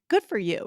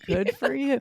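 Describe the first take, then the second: First: It is said in a warm, sincere tone. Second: It is said in an annoyed, sarcastic tone. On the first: The speaker is congratulating someone. "another example here of sincere" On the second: The speaker is annoyed by someone's bragging. "so it's all about tone of voice"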